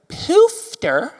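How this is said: It is said with an American accent.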